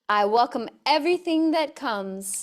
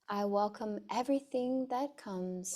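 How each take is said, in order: First: It is spoken loudly. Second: It is spoken softly in a normal voice. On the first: "First, loudly" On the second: "a bit softer in a speaking voice"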